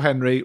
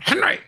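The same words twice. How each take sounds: First: The name is said in a mild, gentle way. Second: The name is said in a harsh, angry way. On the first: The speaker is being lenient. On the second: The speaker is telling someone off.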